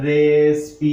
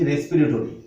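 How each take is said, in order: First: রেসপিরেটরি stretched out syllable by syllable, loud; teacher sounding out রেসপিরেটরি piece by piece, loudly; broken into syllables. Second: Said in the usual way. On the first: Shown as a demonstration. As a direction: say রেসপিরেটরি slowly in separate, drawn-out chunks. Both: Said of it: "আমরা ভেঙে ভেঙে লিখবো".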